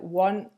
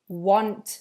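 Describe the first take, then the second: First: The final T sound is dropped. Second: The final T sound is pronounced.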